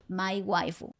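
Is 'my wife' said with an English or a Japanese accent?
Japanese. It is said with a Japanese accent. "con pronunciación japonesa"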